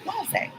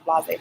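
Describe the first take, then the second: First: Mocking blase. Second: Said in the usual way. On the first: Blase repeated, second mocking.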